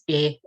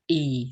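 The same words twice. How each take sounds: First: The vowel sounds like the e in jet. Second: The vowel does not sound like jet's e. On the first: The speaker calls it right. "e as in jet" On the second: The speaker calls it wrong. "but not e"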